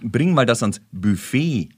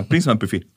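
First: Langsam, mit BUFFET hinten betont; gedehnt, korrekt gesprochen. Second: Zügig und laut, BUFFET auf BÜ betont; Betonung vorne. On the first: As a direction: zieh den Satz bis zum langen Ende von BUFFET. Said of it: "Wenn du sagst". (BUFFET korrekt und gedehnt, Betonung hinten) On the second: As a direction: hau das BÜ von BUFFET vorne raus. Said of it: "Da ist mit dem Bü". (BUFFET knapp im Küchenjargon, erste Silbe betont) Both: Shown as a demonstration.

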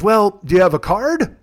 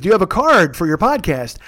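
First: Lightly voiced old man, slow rising question; a hint of a grandpa's unhurried query; Officer Irwin. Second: Lightly mocked old man leaning on "card"; Officer Irwin repeating himself. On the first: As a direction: slowly ask after a "card", rising at the end. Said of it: "like you're a grandpa". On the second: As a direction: repeat it for someone who missed it, stressing "card". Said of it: "Pardon me?".

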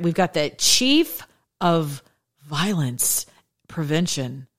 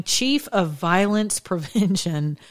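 First: "chief of violence prevention" read very slow, each word weighed; slow emphatic reread. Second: Slow read, laughter breaking in. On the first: Rereading the headline to viewers, slow and ironic. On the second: Reading the headline to viewers, slow with a giggle. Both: Shown as a demonstration. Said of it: "I'm gonna read that again".

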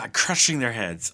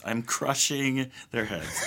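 First: Said in the usual way. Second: Slow, softer, laughing through it. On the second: Pretend. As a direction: chuckle it out slowly.

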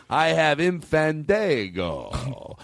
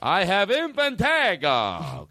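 First: Slow, drawn-out proclamation, rising at the end; grand announcement. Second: Higher, drawn-out proclamation, falling at the end; grand announcement. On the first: Host showing off for reverb, grand drawn-out announcement. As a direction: stretch it out as if for reverb. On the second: Host repeats it for reverb, high grand announcement. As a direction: ring it out high and slow. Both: Pretend.

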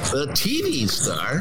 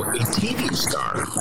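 First: Higher, drawn-out radio announcer delivery; put-on radio host voice, pitched up. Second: Said in the usual way. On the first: Shown as a demonstration. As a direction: announce it slowly in a big radio voice. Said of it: "in my radio voice". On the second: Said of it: "or as I would do it in, in my radio voice".

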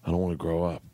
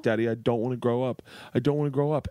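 First: Solemn, imitated child's plea; dead serious. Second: Higher, lightly tearful imitation of a child; mild mock-sobbing repetition; retold sobbing. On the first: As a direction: say it low-key, in total earnest. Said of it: "looks at me dead serious". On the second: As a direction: plead like a daughter crying to Dad. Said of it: "like, just sobbing".

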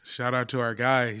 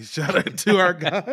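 First: Said in the usual way. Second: Repeating "Shout out to our guy." through a laugh, a bit higher. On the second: Real, not acted. Cohost laughing while repeating the shout-out. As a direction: giggle the shout-out again.

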